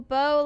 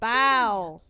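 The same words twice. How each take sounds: First: The vowel sounds like the one in go. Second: The vowel sounds like the one in cow. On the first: It means the weapon for shooting arrows. "Or bow like bread dough" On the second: It means bending forward in respect. "Like you're bowing before someone"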